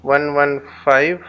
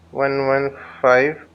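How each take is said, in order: Both takes have the same delivery.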